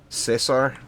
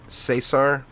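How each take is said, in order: No difference in how they are said.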